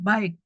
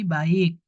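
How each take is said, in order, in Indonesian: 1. Vokalnya meluncur bersama sebagai satu suku kata. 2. Vokalnya dipisah menjadi dua suku kata. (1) "tidak mungkin baik" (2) "tapi baik"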